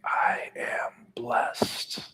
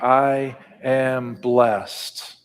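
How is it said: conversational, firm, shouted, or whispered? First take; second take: whispered; conversational. First: It is whispered very softly with breath. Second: It is said in a normal conversational voice. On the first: "Can you whisper it with your mouth and your breath?" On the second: "in a everyday language, talking across the table voice"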